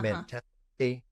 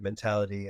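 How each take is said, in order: First: The middle T is a crisp, true T. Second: The middle T is flapped, like a D. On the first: It suits an older mid-Atlantic accent. "the T thing" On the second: It suits a more contemporary American accent. "in a more contemporary American accent you get"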